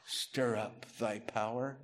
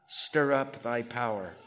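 First: Slow, quiet, questioning echo; puzzled repeat. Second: Said in the usual way. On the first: Shown as a demonstration. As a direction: repeat it as if it sounds strange. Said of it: "That sounds weird, huh?". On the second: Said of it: "That sounds weird".

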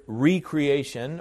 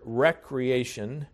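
First: "recreation" said as REE-cree-AY-shun; re-creation pronunciation. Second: "recreation" said as WRECK-ree-AY-shun; everyday recreation pronunciation. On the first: Preacher separating two senses of a word, re-creation pronunciation. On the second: Preacher giving the fun-and-games word, everyday pronunciation. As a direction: say "recreation" with a short REK at the front. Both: Shown as a demonstration. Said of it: "we should pronounce it that way".

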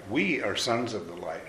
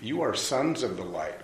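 First: WE lifted in pitch to include everyone; stress on WE. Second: YOU lifted in pitch, then falling away; stress on YOU. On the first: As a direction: lean on the opening word, WE. Verse restated, we against you. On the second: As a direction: put the weight on the first word, YOU. Verse restated, you against we. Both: Shown as a demonstration.

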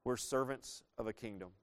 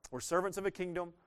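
First: Said in the usual way. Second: We're servants of a kingdom said again higher, lifting to a; emphatic repeat. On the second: Shown as a demonstration. Preacher repeating it to the church for emphasis, higher. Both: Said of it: "repeated line".

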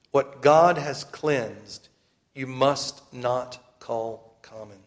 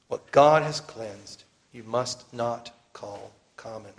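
First: Very slow, weighty proclamation; preaching. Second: Slow, deliberate divine command; slow commanding voice from heaven. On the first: Acted. Preacher pressing the command on brothers and sisters, slow and grave. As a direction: drive the verse home word by word. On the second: Retold or imitated. Preacher voicing heaven's command to Peter, slow and solemn. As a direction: lay down the heavenly command word by word. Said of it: "the voice from heaven gives the same command".

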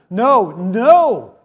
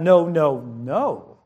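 First: NO, NO, both hit loud, the second swooping up; emphatic repetition. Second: Lower, stern string of noes, sinking at the end; mock really mad. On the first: Shown as a demonstration. Parent correcting a child, emphatic NO, NO. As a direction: punch each NO as a firm correction. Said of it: "'Cause we are emphasizing". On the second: Really mad parent to child, mock-stern. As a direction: act the fed-up parent, voice dropping low. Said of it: "if you're really mad".

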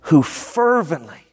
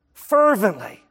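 First: Fervently drawn out slow and weighty; stress on fervently. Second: Fervently said again at a brisker pace, falling; fervently repeated. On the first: Pastor to church, stressing fervently slowly. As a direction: lean hard into fervently, slowly. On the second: Pastor to church, repeating fervently briskly. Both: Shown as a demonstration.

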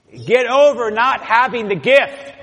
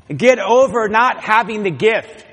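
First: Stronger preaching emphasis. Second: Preaching emphasis. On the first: Repeated even more forcefully. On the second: Preacher repeats point louder. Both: Real, not acted.

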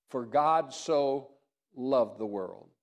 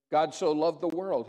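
First: "God" and "loved" drawn out slowly, each weighted; stress on God and loved. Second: "so" lifted and leaned on, the rest falling away; stress on so. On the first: Pastor drives home the verse, slow emphasis on "God" and "loved". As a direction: linger on "God", then land on "loved". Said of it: "that we are loved". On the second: Pastor stressing how much God loved, weight on "so". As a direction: punch the word "so". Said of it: "He loved every person". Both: Shown as a demonstration.

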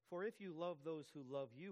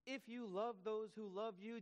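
First: Reading scripture. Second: Higher and louder, pressing the point; impassioned preacher restating Jesus; emphatic paraphrase. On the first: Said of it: "Do not even the tax collectors". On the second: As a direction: drive the words home to the congregation. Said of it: "Jesus says". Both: Shown as a demonstration.

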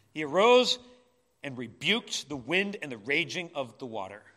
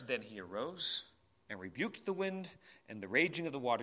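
First: Arose hit loud, then full-voiced; forceful. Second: Softer and lower, calm and settled. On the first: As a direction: proclaim it with authority. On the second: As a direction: let the storm go quiet. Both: Shown as a demonstration. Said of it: "just the change in tone?".

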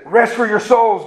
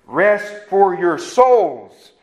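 First: "Rest for your souls" slightly drawn out, pitched higher; pointed correction. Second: Very slow "Rest ... for ... your ... souls", spaced out; word by word. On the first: Preacher supplying the missing verse words, "Rest for your souls" raised and slowed. Correcting the man's partial quote. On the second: Preacher showing the words in his Bible, "Rest for your souls" slow and spaced. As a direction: spell out "Rest for your souls" one deliberate word at a time. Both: Retold or imitated.

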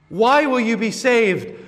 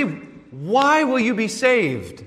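First: Pressing question. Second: Slow question. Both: Acted. Pastor repeats the question.

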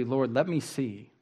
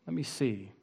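First: Said in the usual way. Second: Much softer repeat of the plea; softer echo. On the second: Acted. Preacher echoes the blind man's plea, hushed. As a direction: let it fall away, almost to yourself.

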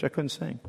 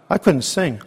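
First: Softer, fading. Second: Emotional recall. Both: Real, not acted. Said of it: "I wept so much in church".

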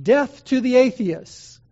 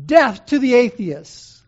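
First: Slow, louder, higher ringing call; proclaimed slogan. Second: Slow, much louder, higher cry turned back on the crowd; defiant proclamation. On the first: Preacher voicing the proconsul's demanded slogan, slow and loud. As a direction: declaim it as the crowd's slogan. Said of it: "he's ordered by the proconsul to say". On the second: Polycarp turning the slogan on the pagan crowd, loud and defiant. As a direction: fling the slogan back at the stands. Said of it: "he looked around and he said". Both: Retold or imitated.

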